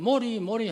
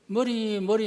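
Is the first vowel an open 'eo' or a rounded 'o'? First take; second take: rounded o; open eo. First: The first vowel sounds like a rounded 'o'. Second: The first vowel is the open Korean 'eo'. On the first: The speaker calls it wrong. "어자 발음을 못하니까" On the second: The speaker calls it right. "머리 머리 하면은"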